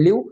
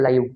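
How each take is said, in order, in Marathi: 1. हा स्वर लहान 'ee' सारखा आवाज आहे. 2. हा स्वर 'eye' सारखा आवाज आहे. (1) "एक आहे ई" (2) "आई"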